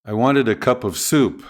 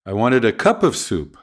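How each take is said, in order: First: Soup stressed, answering what kind. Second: Cup stressed with a falling tune. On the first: Teacher contrasting soup with coffee, stress on soup. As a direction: land the weight on soup. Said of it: "Prominence can emphasize contrast". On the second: Teacher contrasting a cup with a bowl, stress on cup. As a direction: hit the word cup, not soup. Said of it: "not a bowl". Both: Shown as a demonstration.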